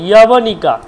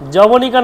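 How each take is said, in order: First: The word begins with a y sound. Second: The word begins with a j sound. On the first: The speaker calls it right. "ইয়বনিকা, ইয়া" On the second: The speaker calls it wrong. "যবনিকা নয় কিন্তু"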